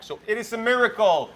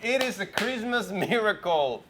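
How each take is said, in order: First: Loud, high-pitched exclamation; excited. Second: Slow, laughing through the words. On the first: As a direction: announce it like big news. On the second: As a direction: savor it with a laugh. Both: Acted. Joking about voice coming back.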